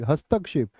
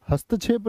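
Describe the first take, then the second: First: "हस्तक्षेप" as hastak-shep, k plus sh; "हस्तक्षेप" with क्ष, falling at the end; correct क्ष sound. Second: "हस्तक्षेप" said as hastachhep; "हस्तक्षेप" mispronounced with छ; wrong pronunciation with छ. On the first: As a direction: finish "हस्तक्षेप" with a distinct k-shep. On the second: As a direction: put chh in place of ksh in "हस्तक्षेप". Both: Shown as a demonstration. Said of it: "नहीं बोलोगे इसको कभी भी".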